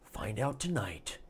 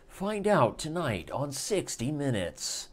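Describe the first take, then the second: First: Softer, falling repeat of the tagline; hushed echo. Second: Slow, weighty anchor sign-off; dramatic promo tagline. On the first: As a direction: Find out tonight said quietly like a teaser echo. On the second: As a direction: land the tease like a TV announcer. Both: Pretend.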